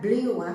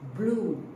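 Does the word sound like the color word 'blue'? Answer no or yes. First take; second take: no; yes. First: The vowel does not sound like 'blue'. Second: The vowel sounds like 'blue'. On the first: The speaker calls it wrong. "bukan blew. Saya pernah dengar orang sebut blew" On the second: The speaker calls it right. "Tidak, blue. Macam warna biru"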